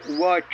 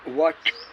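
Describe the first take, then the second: First: The final ch sound ends with a full vowel. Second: The final ch sound ends without a vowel. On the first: "यहाँ उवाच बोला जाता है" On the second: "अगर इतना बोलेंगे तो च आधा हो जाता है"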